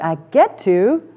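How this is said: The voice sounds upturned and optimistic.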